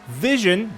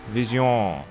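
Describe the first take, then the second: First: It is said with an English pronunciation. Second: It is said with a French pronunciation. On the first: "it's vision" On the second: "but in French"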